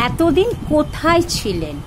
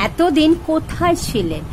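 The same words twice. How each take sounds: No difference in how they are said.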